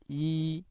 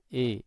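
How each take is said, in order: First: The vowel is a clear, high i sound. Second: The vowel is lowered, sounding like e. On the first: The speaker calls it right. "Jadi ini tengah lidahnya naik" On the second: The speaker calls it wrong. "bunyi yang keluar itu mirip dengan huruf e"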